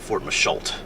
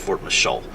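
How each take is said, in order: First: The name ends with a sounded t. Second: The name ends with a vowel, no t. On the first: The speaker calls it wrong. "It's not Fort Machault" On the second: The speaker calls it right. "you don't pronounce it"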